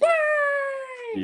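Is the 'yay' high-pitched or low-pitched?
high-pitched. The yay is said at a high pitch.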